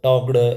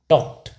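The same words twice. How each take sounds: First: The word ends with a d sound. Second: The word ends with a t sound. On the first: The speaker calls it wrong. "टॉक्ड ऐसे करते हैं, तो ये बिल्कुल गलत है" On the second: The speaker calls it right. "इसको पढ़ा जाएगा टॉक्ड"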